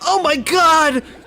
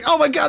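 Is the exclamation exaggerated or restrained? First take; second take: exaggerated; restrained. First: It is shouted with exaggerated, overdramatic energy. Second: It is said with calmer, more restrained energy. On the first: The speaker calls it wrong. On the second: The speaker calls it right.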